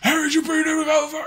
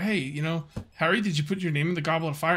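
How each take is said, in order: First: It is asked in a loud, agitated voice. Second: It is asked in a calm, gentle voice.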